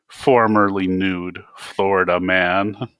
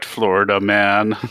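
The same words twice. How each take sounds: First: "Formerly" leaned on with a rising, teasing lift; stress on formerly. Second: Said in the usual way. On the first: Acted. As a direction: tack "Formerly" on with mocking emphasis. Dante echoes the correction mockingly.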